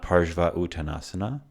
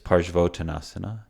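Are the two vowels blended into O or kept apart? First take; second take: kept apart; blended. First: The A and U are kept as separate vowels. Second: The A and U blend into one O sound. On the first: The speaker calls it wrong. "this is not Parsva Uttanasana" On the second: The speaker calls it right. "it's Parsvottanasana"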